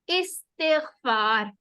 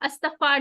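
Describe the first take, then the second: First: The word is said with careful Arabic vowel sounds. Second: The word is said with a casual Urdu pronunciation. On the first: The speaker calls it right. "Proper इसके इराब के साथ, sounds के साथ pronounce" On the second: The speaker calls it wrong. "हमने उर्दू वाला अस्तगफार नहीं कहना"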